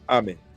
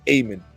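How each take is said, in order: First: The first vowel is a short ah. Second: The first vowel is long. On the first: The speaker calls it wrong. "not Amen" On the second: The speaker calls it right. "the closest correct pronunciation in the Western language would be Amen"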